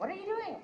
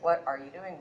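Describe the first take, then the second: First: "What are you doing?" with "doing" sung up high and falling; high-pitched take. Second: Said in the usual way. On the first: Shown as a demonstration. Actress demos alternate takes of one line, much higher. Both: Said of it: "just a bunch of different inflections".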